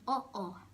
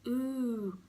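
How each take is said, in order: First: It is said as two separate 'oh' sounds. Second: It is said as one long 'oo' sound. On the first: The speaker calls it right. "you pronounce that twice in oh oh" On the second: The speaker calls it wrong. "you might pronounce it as ooh"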